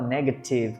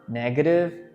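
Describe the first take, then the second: First: The t is a crisp, clearly released t. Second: The t is a quick flap, like r. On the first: The speaker calls it wrong. "ele não fala negative com T" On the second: The speaker calls it right. "A gente puxa um pouquinho esse T para o R"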